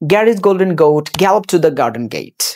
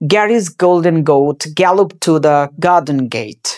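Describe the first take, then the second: First: The sentence is spoken a little fast. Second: The sentence is spoken slowly. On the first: "তারপরে একটু fast" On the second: "প্রথমে একটু slowly practice করবা"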